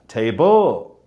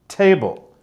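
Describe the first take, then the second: First: The stress is on the last syllable. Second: The stress is not on the last syllable. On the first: The speaker calls it wrong. "they will often say" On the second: The speaker calls it right. "whereas actually it should be"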